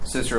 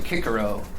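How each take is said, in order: First: The name begins with a soft S sound. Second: The name begins with a hard K sound. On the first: This is the usual modern way of saying it. "We each call him Cicero" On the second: This is how it was said in Latin. "it's really Cicero in Latin"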